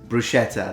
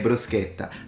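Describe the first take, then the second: First: It is said with a non-Italian, Americanized pronunciation. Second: It is said with a native Italian pronunciation. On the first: The speaker calls it wrong. "no Neapolitan says bruschetta" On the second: The speaker calls it right. "They all say bruschetta"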